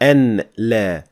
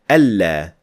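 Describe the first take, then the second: First: The n is pronounced separately before l. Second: The n merges into the l sound. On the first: The speaker calls it wrong. "not an la" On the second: The speaker calls it right. "noon must be fused with lam"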